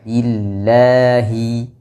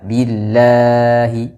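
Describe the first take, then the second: First: The vowel after the 'l' is held briefly. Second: The vowel after the 'l' is held too long. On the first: The speaker calls it right. "cukup dua harokat saja" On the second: The speaker calls it wrong. "ini keliru"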